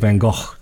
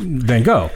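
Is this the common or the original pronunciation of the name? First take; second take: original; common. First: The name is said with its original pronunciation. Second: The name is said with the common English pronunciation. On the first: "the correct Van Gogh is actually Van Gogh" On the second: "they're going to think I'm an idiot if I don't say Van Gogh"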